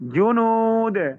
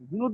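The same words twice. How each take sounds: First: The first j sound is hard and strong. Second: The first j sound is soft and weak. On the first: The speaker calls it right. "জিম জিম শক্ত।" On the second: The speaker calls it wrong. "জুনুদ না ভাই"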